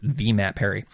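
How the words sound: The m sound begins the second word. The name is read as intended. The speaker calls it right. "I should actually read it differently"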